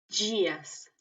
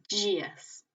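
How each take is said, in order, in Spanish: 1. Empieza con un sonido suave, parecido a la J. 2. Empieza con un sonido suave, parecido a la J.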